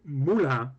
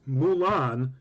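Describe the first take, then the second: First: The name has a rising u and an 'at'-like a. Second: The name is said with an American pronunciation. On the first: "it's got a rising U, and the A is sort of like the A in at" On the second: "which is the way everybody here thinks it's pronounced"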